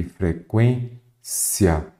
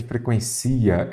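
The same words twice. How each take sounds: First: "Frequência" slowly in parts, stressed on QUÊN; corrected stress. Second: "frequência" stressed on the I, fre-quen-CI-a; wrong stress. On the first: Teacher correcting the word, slow "Frequência" with stress on QUÊN. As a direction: spell out fre-QUÊN-cia slowly for "Frequência". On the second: Teacher reading the misspelt word, stress pushed onto CI in "frequência". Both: Shown as a demonstration. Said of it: "vamos corrigir isso daqui".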